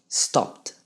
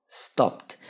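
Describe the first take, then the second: No difference in how they are said.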